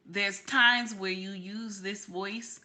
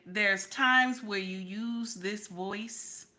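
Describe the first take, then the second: First: Slow, casual family voice; family-and-friends voice. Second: Slow, measured business voice. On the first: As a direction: lightly switch to a voice for friends. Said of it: "use it for your family members and friends". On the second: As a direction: lightly put on a slow professional voice. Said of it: "it's only for business". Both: Shown as a demonstration.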